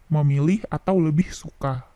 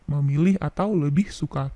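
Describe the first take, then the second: Both takes have the same delivery.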